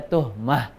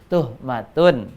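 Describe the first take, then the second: First: The word ends with a short -mah sound. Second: The word ends with a full -matun sound. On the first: The reading stops at this word. "kalau waqaf, kalau penyebutannya berhenti, maka dibaca tuhmah" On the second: The reading continues without stopping. "kalau dibaca sempurna, ya, hak yang terakhir menjadi tun"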